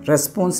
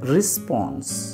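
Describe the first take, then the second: First: The first syllable has an 'eh' vowel. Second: The first syllable has an 'i' vowel. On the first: The speaker calls it wrong. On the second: The speaker calls it right.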